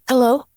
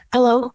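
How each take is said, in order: Both takes have the same delivery.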